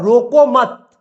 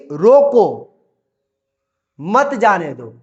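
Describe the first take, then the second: First: रोको मत run together as one loud command; pause after मत. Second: Loud firm रोको, long pause, then मत जाने दो; pause after रोको. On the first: Teacher reading the other punctuation, रोको मत joined. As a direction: join रोको मत firmly, then stop. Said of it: "यहाँ पर बोल रहा है". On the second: Teacher showing a comma after रोको, pause after रोको. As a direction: break after रोको, keep मत जाने दो together. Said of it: "यहाँ पर बोला गया है". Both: Shown as a demonstration.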